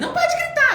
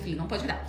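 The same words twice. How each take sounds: First: Much higher, louder scolding yell. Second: Much softer, calm correction; softly. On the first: Mother yelling at her daughter not to yell. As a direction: shout the rule at the kid. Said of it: "Eu tava gritando com ela". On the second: Mother quietly telling her daughter not to yell. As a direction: say it gently, close to her. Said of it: "Fui lá, falei baixinho". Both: Retold or imitated.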